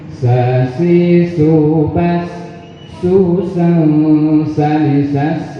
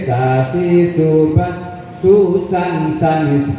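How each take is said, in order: First: The nasal sound of the tanwin is held. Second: The nasal sound of the tanwin is cut short. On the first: The speaker calls it right. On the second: The speaker calls it wrong. "Tidak boleh"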